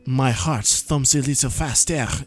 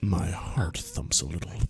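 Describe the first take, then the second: First: It is said in a French accent. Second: It is said without a French accent.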